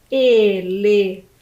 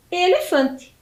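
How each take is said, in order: First: ELEFANTE slowly split into E, LE, FAN, TE; syllable by syllable. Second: Said in the usual way. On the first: Shown as a demonstration. Teacher reveals the animal to pupils, syllable by syllable. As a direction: sound out ELEFANTE lower, pausing between syllables. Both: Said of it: "quatro sílabas".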